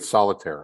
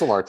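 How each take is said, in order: First: The name is said like the word solitaire. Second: The name is said as so-lar-te. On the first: The speaker calls it wrong. "how do you get solitaire out of Solarte?" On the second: The speaker calls it right. "It's Solarte"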